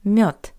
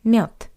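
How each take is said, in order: First: The final consonant is a voiceless T. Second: The same.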